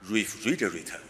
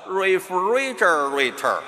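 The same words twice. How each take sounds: First: It is said in a British accent, no r-coloring. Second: It is said in an American accent, r-colored.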